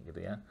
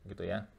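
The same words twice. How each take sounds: Both takes have the same delivery.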